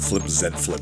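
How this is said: The letter Z is said the British way.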